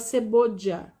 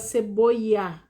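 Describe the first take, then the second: First: It is said with a Costa Rican 'dy' sound. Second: It is said with a Nicaraguan 'y' sound.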